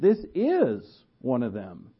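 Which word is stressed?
is. The word is gets extra stress.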